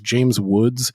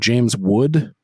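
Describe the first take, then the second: First: The surname ends with an s sound. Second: The surname ends without an s sound. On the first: This is the actor's real name. The speaker calls it right. "Like he calls James Woods inexplicably" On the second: This imitates someone who gets the name subtly wrong. The speaker calls it wrong. "he famously mispronounces uh, people's names like real subtly"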